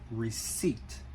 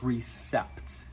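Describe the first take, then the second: First: The p sound is silent in the word. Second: The p sound is pronounced in the word. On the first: The speaker calls it right. "the correct pronunciation is actually receipt" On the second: The speaker calls it wrong. "many people pronounce this word as recept"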